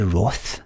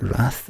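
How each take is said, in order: First: The vowel is rounded, like 'roth'. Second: The vowel is open and flat, like 'rath'. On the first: "English people that say Roth? They say Roth" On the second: "pronouncing it Rath the American fucking way"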